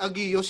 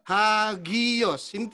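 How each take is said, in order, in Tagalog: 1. Direktang nagsisimula ang salita sa patinig. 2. Nagsisimula ang salita sa tunog na h. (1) "di agios yan. Hindi, kasi merong rough breathing mark" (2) "lalagyan niyo ng H"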